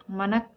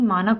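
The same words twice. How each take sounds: First: मनक with short "ma"; wrong pronunciation. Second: मानक with long "maa"; correct pronunciation. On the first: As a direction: say मनक with short first vowel. (मनक में "म" छोटा बोलें) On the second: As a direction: say मानक with long first vowel. (मानक में "मा" लंबा बोलें) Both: Shown as a demonstration. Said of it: "मानक होता है".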